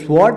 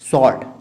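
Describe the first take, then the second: First: The w sound is pronounced in the word. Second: The w sound is silent in the word. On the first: The speaker calls it wrong. "इसे स्वॉर्ड नहीं कह सकते" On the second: The speaker calls it right. "डब्ल्यू silent होता है"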